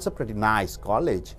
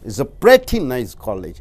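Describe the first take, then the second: First: The stress falls on the word nice. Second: The stress falls on the word pretty. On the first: It is an average college. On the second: It is a good college.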